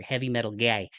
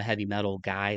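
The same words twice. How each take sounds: First: Heavy metal guy repeated with a broad Midwest guy; exaggerated Midwest accent. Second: Slight Midwest accent on guy; natural Midwest vowels in heavy metal guy. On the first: Shown as a demonstration. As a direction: lean into the Midwest vowel in guy. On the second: Real, not acted. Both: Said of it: "my Midwest accent really came out there".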